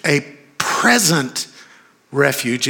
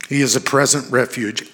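First: Slow right down and lean on "present"; stress on PRESENT. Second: Said in the usual way. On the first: Shown as a demonstration. Preacher repeating it for the congregation, stressing PRESENT. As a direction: PRESENT drawn out and punched, then a pause.

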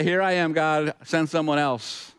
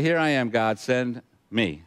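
First: Higher-pitched start, dragging into a dodge; lightly acted passing of the buck; half-hearted offer, slowing as it backs out; mock reluctant volunteer. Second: Level, understated offer to serve; simply acted acceptance, at ordinary pitch; steady, lightly acted readiness with a beat before the end; willing volunteer. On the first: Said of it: "he has some options right now". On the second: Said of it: "Or he can say".

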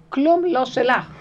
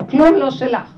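First: כלום לא שלך said slowly and loudly, each word weighted; slow emphatic. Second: כלום לא שלך shouted much louder. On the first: Her inner voice insisting to her, slow and emphatic. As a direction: lean hard on כלום, slowly. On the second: Her inner voice shouting the truth at her, loud. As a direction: belt כלום לא שלך out at full voice. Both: Acted. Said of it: "זה לא שלך בכלל".

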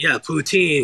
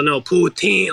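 First: Said in the usual way. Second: Put-on higher, insistent "poo-TEEN" on "poutine"; emphatic poutine. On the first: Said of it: "And I was like". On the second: Snarky server correcting a customer, emphasis on "poutine". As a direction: stress the last syllable of "poutine". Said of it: "trying to make it emphasis".

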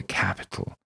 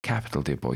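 First: Breathy pleased repeat; pleased whisper. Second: A hint of a pleased old gent. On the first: Acted. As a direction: breathe the word capital with relish. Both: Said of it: "He's very pleased".

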